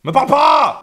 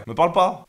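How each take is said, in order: First: High, loud angry outburst; hammed-up furious rebuff. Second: Said in the usual way. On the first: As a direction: shout it to push them away. Repeats it as angry snap.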